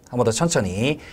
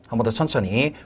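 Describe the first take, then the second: No difference in how they are said.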